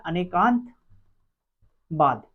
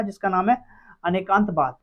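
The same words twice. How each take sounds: First: Anekantavada stretched out very slowly, syllable by syllable; slow drawn-out term. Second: Said in the usual way. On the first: Shown as a demonstration. Teacher drilling the class on Anekantavada, each syllable drawn out slowly. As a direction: spell out Anekantavada slowly so students catch it. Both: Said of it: "जिसका नाम क्या है?".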